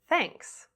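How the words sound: The pitch falls at the end. "falling intonations"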